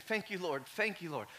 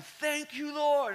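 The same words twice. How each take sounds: First: Said in the usual way. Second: Retold yelling. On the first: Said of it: "just saying". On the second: Preacher reliving crying out to God while driving, yelled high. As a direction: cry it out high to the Lord. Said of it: "I'm yelling".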